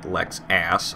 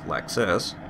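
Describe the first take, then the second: First: The last syllable sounds like 'ass'. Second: The last syllable sounds like 'us'. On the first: It mocks the drivers as jerks. The speaker calls it wrong. "I'm pronouncing it Lexass" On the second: It is the car brand's real name. The speaker calls it right. "I'm very well aware that it's Lexus"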